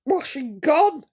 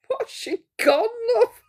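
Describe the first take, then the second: First: Said in the usual way. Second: Laughing. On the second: Real, not acted. Repeats it laughing.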